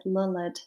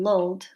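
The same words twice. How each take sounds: First: Lulled said as two syllables, lull-ed. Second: Lulled said as one syllable, the usual way; plain one-beat lulled with a silent e. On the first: Teacher giving the poem's pronunciation, two-syllable lulled. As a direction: stretch lulled into lull-ed, with the e sounded. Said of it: "we should actually pronounce it lulled". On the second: Teacher contrasting the normal pronunciation, one-syllable lulled. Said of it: "which is how we should normally pronounce it". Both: Shown as a demonstration.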